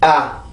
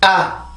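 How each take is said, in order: First: The vowel is soft, low and relaxed. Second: The vowel is tense and higher in pitch. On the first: The syllable is unstressed. "이건 강세음절이 아니기 때문에" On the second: The syllable is stressed. "만약에 여기 있었다면"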